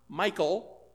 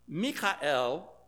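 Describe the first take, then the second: First: The name is said in a modern English way. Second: The name is said in a non-English way.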